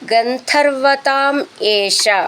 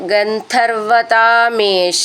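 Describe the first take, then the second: First: The two words are said as separate words. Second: The two words run together as one word.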